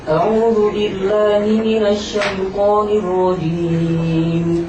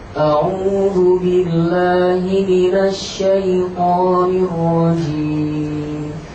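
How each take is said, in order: First: It is recited quickly but within limits. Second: It is recited at a medium pace. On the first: "cepat di sini ada batasnya" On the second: "Tadwir itu pertengahan"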